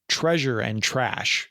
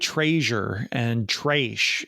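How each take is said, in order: First: Said with a plain standard pronunciation. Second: Said with an odd regional dialect pronunciation. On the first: "instead of" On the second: "He'll say"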